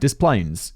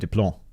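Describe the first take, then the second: First: The name is pronounced the American way. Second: The name is pronounced the French way. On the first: The speaker calls it right. "this weird American pronunciation" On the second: The speaker calls it wrong. "I'd want to say Des Plaines or Des Plaines or something French"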